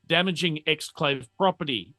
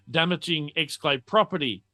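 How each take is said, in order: Both takes have the same delivery.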